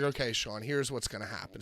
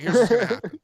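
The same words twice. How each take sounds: First: Low, soft confiding voice; retold low aside. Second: Louder, higher urgent delivery; retold announcement. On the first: Wrestler taking Sean aside during match, low hushed confiding. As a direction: quietly lay out a plan. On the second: Wrestler telling Sean the plan during match, raised voice. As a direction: raise it over the noise.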